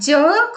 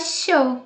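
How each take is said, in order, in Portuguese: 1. A palavra começa com um som de 'dj'. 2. A palavra começa com um som de 'sh'. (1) "como D J" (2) "como los hermanos argentinos"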